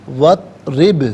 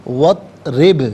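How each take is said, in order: Both takes have the same delivery.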